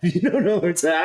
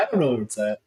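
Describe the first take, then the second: First: Laughing while talking, higher and louder. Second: Said in the usual way. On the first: Real, not acted. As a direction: laugh through the words. Laughs at the AI's answer.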